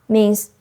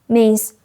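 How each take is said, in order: Both takes have the same delivery.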